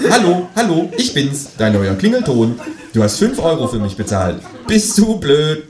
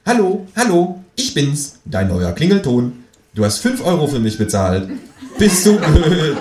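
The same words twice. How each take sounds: First: High, laughing ringtone squawk; tinny ringtone squawk; squawky ringtone voice, replayed. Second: High, squawking phone ringtone; tinny ringtone squawk; squawky ringtone voice. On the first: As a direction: squawk it again like the phone. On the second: Acted. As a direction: quack it out like a cheap ringtone. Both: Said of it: "quäkt es aus dessen Telefon".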